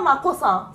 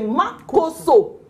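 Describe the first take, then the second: First: The name ends with an 'a' vowel. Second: The name ends with an 'o' vowel. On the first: The speaker calls it wrong. "mais c'est pas Makossa" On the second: The speaker calls it right. "c'est Makosso"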